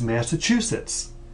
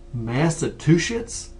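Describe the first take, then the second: First: No T sound is heard in the middle. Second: A T sound is added in the middle. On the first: The speaker calls it right. "Think of a choo-choo train. It's Massachusetts" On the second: The speaker calls it wrong. "I hear that all the time"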